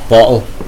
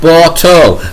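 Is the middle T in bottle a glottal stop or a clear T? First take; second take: glottal stop; clear T. First: The middle T is a glottal stop. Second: The middle T is clearly pronounced.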